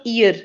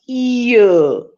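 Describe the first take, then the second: First: "ear" said the Indian English way, as "year". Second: "ear" said slowly as a pure vowel glide, no y; slow model "ear", ee-uh; correct British ear. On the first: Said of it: "I'll give you the sample of Indian English". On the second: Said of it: "So it is not ear, it is ear". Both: Shown as a demonstration.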